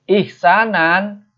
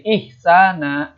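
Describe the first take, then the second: First: The word ends with a final n sound. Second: The word ends with a long a vowel. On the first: The reader continues without stopping. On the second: The reader stops at this word.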